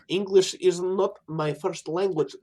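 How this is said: It is said in a put-on foreign accent.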